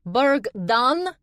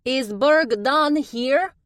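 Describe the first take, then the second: First: High, loud called-out question; bright calling woman's voice; calling female voice. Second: High, loud, slow calling; drawn-out high call; calling female voice. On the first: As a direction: call out across the crowd. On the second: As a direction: call out over the heads. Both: A narrator's reading. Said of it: "a female voice called out".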